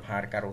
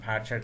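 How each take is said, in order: First: The middle consonant is a 'k' sound. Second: The middle consonant is a 'ch' sound.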